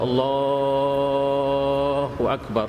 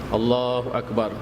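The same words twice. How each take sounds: First: The vowel in Allah is drawn out very long. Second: The vowel in Allah is kept short. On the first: "boleh panjang sampai tujuh alif ataupun empat belas harakat" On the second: "tidak panjang"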